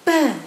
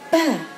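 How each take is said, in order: First: The vowel is kept short. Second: The vowel is drawn out long. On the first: The speaker calls it right. "coba ba" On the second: The speaker calls it wrong. "Oh masih ada panjangnya"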